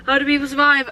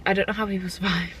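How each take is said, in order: First: High, whimpering exclamation; mock despair. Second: Said in the usual way. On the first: Real, not acted. Shopper lamenting food prices, in mock-tearful despair. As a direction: wail it lightly after a gasp.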